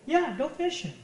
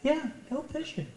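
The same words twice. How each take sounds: First: The voice sounds warm and sincerely approving. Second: The voice sounds flat and reluctantly approving. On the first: The permission is given sincerely. "I want to get the real" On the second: The permission is given reluctantly. "not the"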